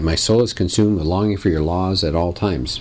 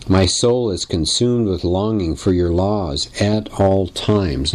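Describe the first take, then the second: First: Said in the usual way. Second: "at all times" drawn out word by word; stress on "at all times". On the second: Shown as a demonstration. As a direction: lean deliberately on "at all times". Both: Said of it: "And I'm emphasizing that".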